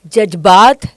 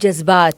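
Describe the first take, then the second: First: The middle consonant is a j sound. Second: The middle consonant is a z sound. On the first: The speaker calls it wrong. "जे था" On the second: The speaker calls it right. "ये बन गया जेड"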